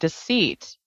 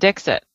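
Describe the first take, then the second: First: It is said with a French pronunciation. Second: It is said with an American pronunciation. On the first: "if you pronounce it with a French accent" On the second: "the way that it's spelled, the American English"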